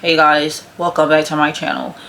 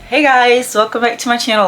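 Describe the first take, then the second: First: It is said in a dull, flat tone. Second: It is said in an excited, lively tone.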